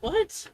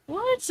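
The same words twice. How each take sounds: First: "What?" rising high, stunned; incredulous. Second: "What?" jumping way up high in disbelief; a sharp high disbelieving What; inner "what". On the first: Replaying her inner reaction, a rising stunned "What?". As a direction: let the "What?" leap up in shock. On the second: To herself, hearing his excuse, a stunned high "What?". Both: Retold or imitated. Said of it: "but in my head, I'm like".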